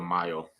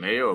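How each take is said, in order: First: The first syllable sounds like 'my'. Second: The first syllable sounds like 'may'. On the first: "Cinco de Mayo"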